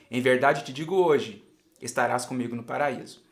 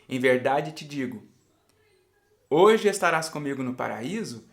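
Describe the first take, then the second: First: The pause comes after the word hoje. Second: The pause comes before the word hoje.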